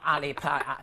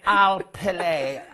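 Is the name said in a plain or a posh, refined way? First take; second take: plain; posh. First: The name is said in a plain, everyday way. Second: The name is said in a refined, posh way. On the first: The speaker calls it wrong. "I'm not Ali Paley" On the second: The speaker calls it right. "you say it with such style and sophistication"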